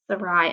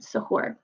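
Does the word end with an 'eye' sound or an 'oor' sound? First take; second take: eye; oor. First: The word ends with an 'eye' sound. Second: The word ends with an 'oor' sound. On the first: The speaker calls it wrong. "I said sarai, and that was wrong" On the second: The speaker calls it right. "it was how you were supposed to say it"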